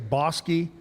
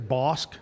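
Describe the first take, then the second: First: The name is said with two syllables. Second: The name is said with one syllable. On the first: This is how locals say it. "we say Bosky" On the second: This is how some other people say it. "but some people say Bosk"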